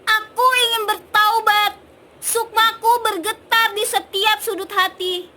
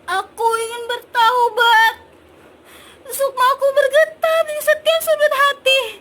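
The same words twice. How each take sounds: First: It sounds angry and loud. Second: It sounds sad and sorrowful.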